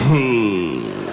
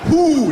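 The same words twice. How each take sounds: First: The word slides out loosely, mumbled. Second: The word is said with tight, crisp lips.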